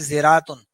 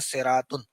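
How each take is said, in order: First: The word begins with a z sound. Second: The word begins with an emphatic s sound. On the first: "एक और मादा है ज़ा, तो एक और लफ्ज़ बनता है" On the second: "इस सीन को स्वाद में तब्दील करके इस लफ्ज़ को बनाया गया"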